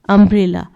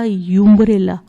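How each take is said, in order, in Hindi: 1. शब्द 'um' ध्वनि से शुरू होता है। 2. शब्द 'yoo' ध्वनि से शुरू होता है।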